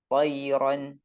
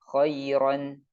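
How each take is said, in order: Both takes have the same delivery.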